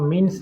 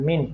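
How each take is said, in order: First: The word ends with an audible s sound. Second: The word ends without any s sound. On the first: The speaker calls it wrong. "এটা মিনস না, অনেকে মিনস বলে" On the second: The speaker calls it right. "এই এসটা উজ্জ্ব থাকবে, মিন profit হবে"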